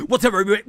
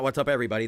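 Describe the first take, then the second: First: High, loud hyped-up intro voice; mock YouTuber greeting. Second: Said in the usual way. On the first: Mocking a tiny-microphone reactor, hyped greeting. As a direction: bounce it like a fake hype streamer. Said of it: "His name's D B". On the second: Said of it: "It's not".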